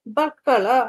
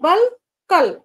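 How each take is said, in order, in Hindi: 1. बीच का संयुक्त व्यंजन दोहरे kk की तरह बोला जाता है। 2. बीच का संयुक्त व्यंजन lk की तरह बोला जाता है। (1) "समीकरण में क्या आ रहा है" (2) "ला हलंत है"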